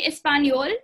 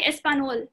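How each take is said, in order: First: "español" said es-pan-YOL; N-Y sound. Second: "español" said es-pa-NOL, no y glide; wrong plain N. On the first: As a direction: put a y glide after the n in "español". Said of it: "So it's N Y". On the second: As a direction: drop the ñ of "español" to a simple n. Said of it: "you don't say español". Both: Shown as a demonstration.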